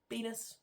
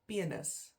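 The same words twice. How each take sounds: First: The word has an English pronunciation. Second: The word has an Afrikaans pronunciation.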